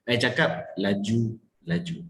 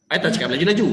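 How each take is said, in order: First: Slow "laju... laju" with a gap between; slowed, distinct words. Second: "laju-laju" rushed, rising at the end; quick talk. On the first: Coach repeats the contrast, "laju-laju" slow and separated. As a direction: draw out each syllable of "laju-laju". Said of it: "I perlahankan sedikit supaya dia nampak". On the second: Coach repeats the contrast, "laju-laju" said quickly. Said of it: "Nampak tak beza dia?". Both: Shown as a demonstration.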